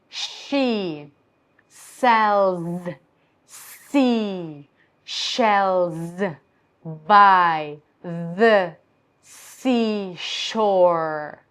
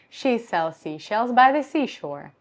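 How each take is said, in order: First: It is slow, with every consonant exaggerated. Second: It is fast, with no breaks between words. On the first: "really exaggerate every every consonant" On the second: "very easy for me to say this fast"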